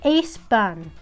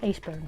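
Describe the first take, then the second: First: The name is said with a Korean pronunciation. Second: The name is said with an English pronunciation. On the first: "in Korean" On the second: "if you want to pronounce it in the English accent"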